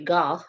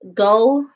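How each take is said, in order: First: The name is said the other-countries way. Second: The name is said the American way. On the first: "other countries uh, say Gogh" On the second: "go is how Americans say it"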